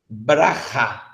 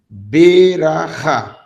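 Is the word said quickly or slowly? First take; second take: quickly; slowly. First: The word is said quickly, with the first vowel dropped. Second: The word is said slowly, with a full first vowel. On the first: "você deve ler rápido" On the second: "se eu for ler em câmera lenta, seria assim"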